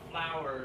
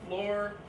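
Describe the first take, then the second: First: The word is said as two syllables. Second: The word is said as one syllable. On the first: The speaker calls it right. "It's gotta be two syllables" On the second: The speaker calls it wrong. "You guys keep saying floor"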